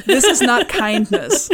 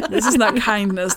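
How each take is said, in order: First: Slow, louder "This is not kindness." through a laugh; "This is not kindness." drawn out, amused and emphatic; laughing insistence. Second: Said in the usual way. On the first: Shown as a demonstration. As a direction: lean on "not" while laughing. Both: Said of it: "You completely misunderstand".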